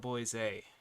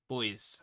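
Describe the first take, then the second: First: The name is said like 'Boise'. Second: The name is said like 'Boys'.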